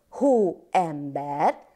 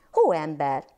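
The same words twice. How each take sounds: First: Hó-em-ber said slowly, syllable by syllable; split into syllables. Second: Said in the usual way. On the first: Shown as a demonstration. Teacher to children, clapping out syllables slowly. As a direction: stretch Hóember out into its three syllables. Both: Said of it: "szótagoljunk".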